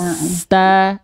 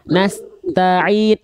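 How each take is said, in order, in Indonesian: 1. s langsung mengalir ke t tanpa jeda. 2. Ada jeda kecil antara s dan t. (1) "itu harus ngalir terus" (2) "Bunda tadi begini"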